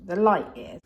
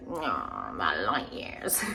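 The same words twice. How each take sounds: First: Said in the usual way. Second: Much lower, slow and drawn-out title; funny voice. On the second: Shown as a demonstration. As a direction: drop the voice low and drawl the title playfully. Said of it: "I said that in a funny way".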